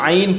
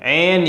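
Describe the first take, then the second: First: The vowel glides from 'aa' into 'ee'. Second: The vowel is a single open 'e' sound. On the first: The speaker calls it right. "बल्कि आइन पढ़ना है, क्योंकि मारूफ पढ़ना है" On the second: The speaker calls it wrong. "बाज़ लोग आइन को मजहूल पढ़ देते हैं"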